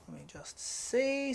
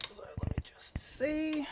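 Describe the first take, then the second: First: Said in the usual way. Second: Slow breathy whisper to self. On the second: Real, not acted. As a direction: whisper it slowly while checking. Checking camera, murmuring to self.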